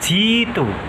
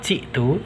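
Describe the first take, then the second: First: A long i vowel replaces the glottal stop. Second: A glottal stop comes before the t. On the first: "Hamzahnya diganti ya" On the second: "Lafaz jitu"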